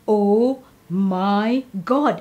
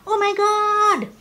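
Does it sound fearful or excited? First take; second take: fearful; excited. First: It sounds fearful and scared. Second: It sounds excited and thrilled.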